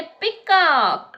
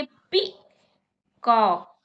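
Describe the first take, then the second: First: Said in the usual way. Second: peacock drawn out very slowly, syllable by syllable; slow demo. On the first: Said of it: "फिर बोलिए peacock". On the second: Shown as a demonstration. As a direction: stretch peacock slowly so kids can clap. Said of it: "जैसे मैं बोलूंगी". (Peacock को धीरे-धीरे खींचकर)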